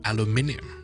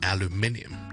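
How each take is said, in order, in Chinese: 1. 主重音在第一个音节。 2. 主重音在第一个音节。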